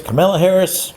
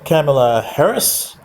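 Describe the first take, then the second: First: Kamala said kuh-MEL-uh, stress on the middle syllable; pronouncing Kamala. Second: Kamala said KAM-a-la, stress on the first syllable; Kamala with a short first a; pronouncing Kamala. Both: Shown as a demonstration. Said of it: "However you wanna pronounce that".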